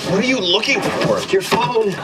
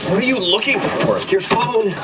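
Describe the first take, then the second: Both takes have the same delivery.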